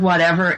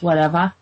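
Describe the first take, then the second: First: Said in the usual way. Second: "whatever" ending in an open "ah"; Boston R-less ending. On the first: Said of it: "instead of whatever". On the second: Shown as a demonstration. Showing the Boston sound, "whatever" with an "ah" ending. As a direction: say "whatever" with the final R turned to "ah". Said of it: "the R's are like a ah sound".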